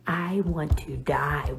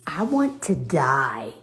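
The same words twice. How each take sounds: First: "I want to die" whispered slowly in embarrassment; mortified whisper. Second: Said in the usual way. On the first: Real, not acted. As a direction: breathe it out, ashamed. Repeated in a whisper.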